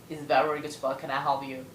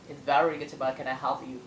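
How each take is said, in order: Both takes have the same delivery.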